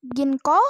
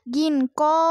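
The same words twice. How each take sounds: First: Said in the usual way. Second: Ginko with the o held a bit longer; long vowel reading. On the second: Shown as a demonstration. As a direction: stretch the o in ginko slightly. (ginko dibaca dengan o agak panjang) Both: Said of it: "gitu, agak panjangan dikit".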